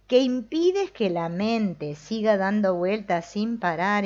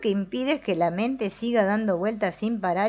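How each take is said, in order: First: The sentence is read slowly. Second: The sentence is read quickly. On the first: "lo voy a leer más lento" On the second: "Ahí lo leí muy rápido"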